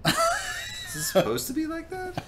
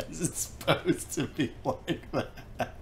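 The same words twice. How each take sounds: First: Very high, slow squeaky mockery; teasing falsetto question. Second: Laughing through the question; laughing echo. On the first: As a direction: squeak it out like a cartoon. Mocking friend's odd hand. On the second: Real, not acted. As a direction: repeat it slow and soft through laughter. Echoing the joke, laughing.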